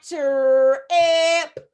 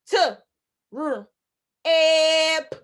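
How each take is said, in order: First: "ch" run together as a long "trrr", then a long loud "e", "p"; wrong blended breakdown. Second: "T", "r", "e", "p" as four sounds with clear gaps; separate sounds demo. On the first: Teacher warns it is not three sounds, wrong blended breakdown. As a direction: drag out "ch, e, p" as three slow sounds. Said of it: "Four sounds, not". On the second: Teacher corrects to four sounds, separate sounds demo. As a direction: clip "T", then give "r" and a longer "e" and "p" apart. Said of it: "Four sounds". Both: Shown as a demonstration.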